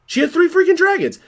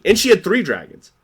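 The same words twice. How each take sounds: First: Freaking jumps way up in pitch; stress on freaking. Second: Said in the usual way. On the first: Real, not acted. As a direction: hit freaking high and hard. Repeats the line, building emphasis.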